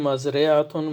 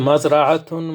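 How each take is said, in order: First: The vowel after the r is i. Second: The vowel after the r is a. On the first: "here re" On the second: "Here ra"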